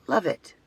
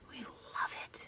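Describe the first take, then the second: First: Said in the usual way. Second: Soft unvoiced whisper. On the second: Real, not acted. Vlogger gushing about night rides, whispered. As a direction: breathe it like a secret.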